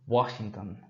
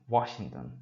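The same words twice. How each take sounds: Both takes have the same delivery.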